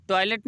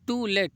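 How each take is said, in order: First: टॉयलेट run together as one word, toilet; toilet, not to let. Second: टू लेट split clearly into टू and लेट; to let, two words. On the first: Teacher warning students it is not टॉयलेट. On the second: Teacher spelling out to let for the class. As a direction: separate टू from लेट with a small break. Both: Shown as a demonstration. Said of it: "टॉयलेट नहीं कह रहा हूँ".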